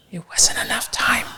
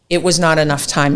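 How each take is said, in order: First: Hushed, breathy aside; whispered punchline. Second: Said in the usual way. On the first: Real, not acted. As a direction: drop to a whisper for the reveal. Confides the outcome, repeating it.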